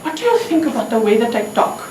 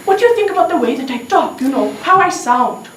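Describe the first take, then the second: First: Put-on a measured question in an Indian accent; acted Indian accent, unhurried. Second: Put-on pressing Indian-accented repeat. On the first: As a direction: ask with an Indian accent, at usual pitch. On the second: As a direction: ask it brisk and pitched up, Indian accent. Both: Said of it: "there is an accent".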